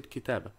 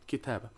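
First: The vowel before the final b is cut short. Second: The vowel before the final b is cut short.

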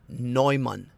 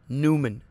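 First: The name is said the German way. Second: The name is said in an Americanized way. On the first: The speaker calls it right. "This is going to be Neumann" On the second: The speaker calls it wrong. "This is not Newman"

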